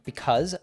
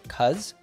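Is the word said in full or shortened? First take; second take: full; shortened. First: The word is said in full, two syllables. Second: The word is shortened to one syllable. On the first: "instead of saying because" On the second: "she cuts it to cuz"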